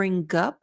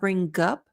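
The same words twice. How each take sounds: First: The G is fully and hard linked to up. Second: The same.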